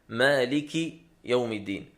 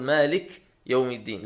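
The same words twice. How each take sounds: First: The k of the first word takes short i. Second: The k of the first word has no vowel. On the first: The speaker calls it right. "بكسر الكاف" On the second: The speaker calls it wrong. "مالك بكسر الكاف وليس بتسكينها، بعضهم يقول"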